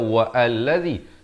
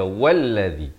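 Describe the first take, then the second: First: The second word starts with its own separate vowel. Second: The two words run together without a break. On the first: The speaker calls it wrong. "jangan dibaca wa allazi" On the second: The speaker calls it right. "tapi kita baca wallazi"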